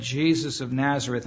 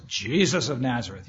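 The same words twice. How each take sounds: First: Said in the usual way. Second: Lightly voiced gruff soldier; mildly gruff, demanding voice. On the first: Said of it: "And they said". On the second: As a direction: demand it with a touch of gruff authority. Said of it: "stated in a pretty gruff voice".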